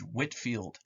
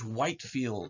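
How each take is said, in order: First: The first syllable has a short 'whit' vowel. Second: The first syllable has a long 'white' vowel.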